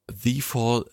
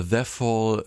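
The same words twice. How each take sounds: First: The Fall with The said as "thee"; long "thee". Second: The Fall with The said as short "theh". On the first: Host offering one reading of the title, "thee" in The Fall. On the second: Host offering another reading of the title, short "theh" in The Fall. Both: Shown as a demonstration. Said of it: "je nachdem".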